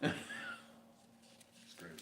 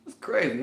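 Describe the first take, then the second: First: Slow breathy whisper with a laugh; whispered echo. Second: Said in the usual way. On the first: Shown as a demonstration. Musing to viewers, a slow whisper. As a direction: repeat it to yourself in a slow whisper.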